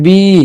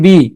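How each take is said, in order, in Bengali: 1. স্বরধ্বনিটি দীর্ঘ টেনে বলা হচ্ছে। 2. স্বরধ্বনিটি ছোট করে কেটে বলা হচ্ছে।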